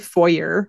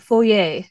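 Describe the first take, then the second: First: Foyer is said in a plain, ordinary way. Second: Foyer is said in a fancy, upscale way. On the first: It sounds lower class. "Because if I say foyer. It sounds so poor" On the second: It sounds upscale, like mansion talk. "I feel like I have to say it like that"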